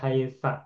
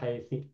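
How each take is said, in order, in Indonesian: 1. Kata ini berakhir dengan vokal a. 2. Kata ini berakhir dengan vokal i. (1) "tidak haitsa atau haitsi" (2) "tidak haitsa atau haitsi"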